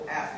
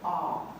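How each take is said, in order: First: The word has a plain, short vowel. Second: The word has a long, drawn-out posh vowel. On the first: "they don't go ask" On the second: "they go like ah"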